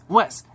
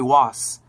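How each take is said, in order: First: The name is said with an 'eh' vowel. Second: The name is said with an 'ah'-like vowel. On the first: The speaker calls it right. "my name's Wes" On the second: The speaker calls it wrong. "some people just call me Was"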